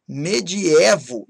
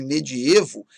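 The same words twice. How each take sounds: First: MEDIEVO slowly with open é; timbre aberto. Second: MEDIEVO with closed ê; timbre fechado. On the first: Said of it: "têm timbre aberto". (medievo devagar com é aberto) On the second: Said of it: "embora muita gente use". (medievo com ê fechado) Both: Shown as a demonstration.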